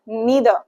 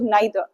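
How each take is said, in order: First: The first vowel sounds like 'ee'. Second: The first vowel sounds like 'eye'. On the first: "ये जो दोनों pronunciation है ये बिल्कुल ठीक है" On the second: "ये जो दोनों प्रोनाउंसिएशन है ये बिल्कुल ठीक है"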